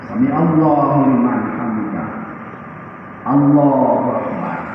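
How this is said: A breath-length pause separates the two phrases. The worshipper rests briefly before moving on. The speaker calls it right. "sudah ada tumak nina"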